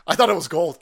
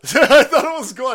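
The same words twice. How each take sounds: First: Said in the usual way. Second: High, loud laughing take on the line; laughing repeat. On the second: Real, not acted. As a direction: laugh it out, pitched way up. Repeats it laughing, much higher.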